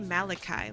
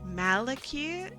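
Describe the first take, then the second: First: The name ends with an 'eye' sound. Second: The name ends with an 'ee' sound. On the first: "like malachite" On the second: "it would have the E sound from mythically"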